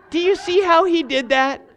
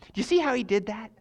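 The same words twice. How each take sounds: First: Higher, louder, leaning on you; repeated with rising excitement; emphatic repeat. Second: Said in the usual way. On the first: Real, not acted. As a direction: press the question home to the crowd.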